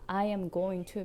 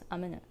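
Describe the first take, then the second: First: Every word is said fully and separately. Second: The words blur together into one short sound. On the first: "I am going to becomes" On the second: "becomes amena"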